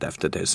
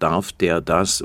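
First: It is shortened and run together as one word. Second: Each word is said separately, as in Standard German. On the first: "der Franke verkürzt es auf" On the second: "im Hochdeutschen darf der das"

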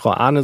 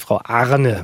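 First: The name is said without an added R sound. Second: The name is said with an added R sound. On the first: This is the person's real name. The speaker calls it right. "Ich sage nicht" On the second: The name is mispronounced by mistake. The speaker calls it wrong. "Also bring dann R rein"

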